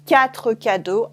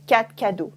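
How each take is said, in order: First: "quatre cadeaux" with the final R pronounced; full R. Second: "quatre cadeaux" as "quat' cadeaux", R cut; dropped R. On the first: Teacher shows careful "quatre cadeaux". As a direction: say the R at the end of "quatre". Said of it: "instead of saying quatre cadeaux". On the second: Teacher shows spoken-French "quatre cadeaux". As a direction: drop the final R of "quatre". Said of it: "cut the R at the end". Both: Shown as a demonstration.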